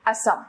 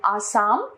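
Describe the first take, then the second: First: Said in the usual way. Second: आसाम with two long aa vowels; wrong pronunciation. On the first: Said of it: "इसका शुद्ध रूप". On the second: Shown as a demonstration. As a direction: say आसाम as aa-saam. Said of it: "अशुद्ध रूप".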